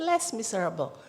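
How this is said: It is said with an English accent.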